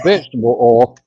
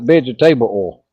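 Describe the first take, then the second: First: The word 'vegetable' is said with the usual reduction. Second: The word 'vegetable' ends in a fully pronounced 'table'. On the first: "instead of saying vegetable oil" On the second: "he calls it vegetable oil"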